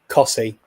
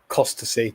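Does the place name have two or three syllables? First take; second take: two; three. First: The name is said with two syllables. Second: The name is said with three syllables. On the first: The speaker calls it right. "it's Cossey" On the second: The speaker calls it wrong. "not Costasy"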